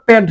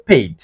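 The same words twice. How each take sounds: First: পেড as "ped", short vowel; the mistaken পেড, with no "ay" glide; wrong pronunciation demo. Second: পেইড as "payd", with an "ay" glide; পেইড gliding from "e" into "i"; correct pronunciation demo. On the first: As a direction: say পেড wrongly, rhyming with "bed". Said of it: "এটা আবার পেড হবে না". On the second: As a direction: model পেইড rhyming with "made". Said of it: "এটা হবে পেইড". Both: Shown as a demonstration.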